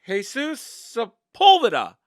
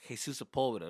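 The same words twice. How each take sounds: First: Slow, very loud, high announcing voice; confused teacher announcing. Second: Said in the usual way. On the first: Retold or imitated. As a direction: call the name out slowly and doubtfully. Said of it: "teacher that was announcing it was confused".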